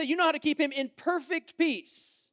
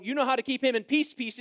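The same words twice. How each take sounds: First: Said in the usual way. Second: "peace, peace" doubled, the second "peace" short and clipped; stress on doubling. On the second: Shown as a demonstration. Preacher showing the Hebrew doubling of "peace", stressed. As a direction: repeat "peace" to mean perfect peace. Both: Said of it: "is to say".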